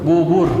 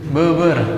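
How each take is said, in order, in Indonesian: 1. Vokal diucapkan dengan bibir membulat, dimonyongkan ke depan. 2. Vokal diucapkan dengan bibir datar, tidak membulat. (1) "harus monyong" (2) "kalau nggak monyong"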